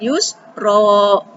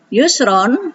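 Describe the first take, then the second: First: It ends in a lengthened vowel. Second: It ends in a short vowel plus n. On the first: The recitation stops at the end of the verse. "kalau karena wakof di akhir ayat" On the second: The recitation continues into the next word. "Kalau lanjut, ini dibaca tetap ron"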